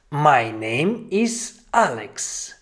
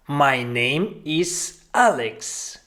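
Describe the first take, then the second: No difference in how they are said.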